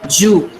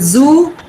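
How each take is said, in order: First: The word begins with a j sound. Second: The word begins with a z sound. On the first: "zoo is pronounced ju" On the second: "z is pronounced as j"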